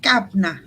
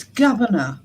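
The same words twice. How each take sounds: First: "governor" squashed to two syllables, "guv-nah"; mock the wrong "governor" as "gab-na"; mispronunciation mimicked. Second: "governor" said fully, with all three syllables; correct British pronunciation. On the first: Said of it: "'Cause it's governor". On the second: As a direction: say "governor" unhurried, middle syllable kept. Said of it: "not governor". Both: Shown as a demonstration.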